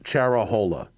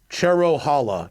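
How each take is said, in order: First: The second syllable is 'ra', vowels swapped. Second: The second syllable is 'ro', like Cherokee. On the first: The speaker calls it wrong. "not Cherahola" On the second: The speaker calls it right. "it's Cherohala"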